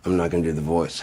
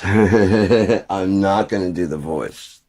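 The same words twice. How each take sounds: First: Said in the usual way. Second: Laughing it out slowly and louder. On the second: Real, not acted. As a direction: repeat it through real laughter, drawn out.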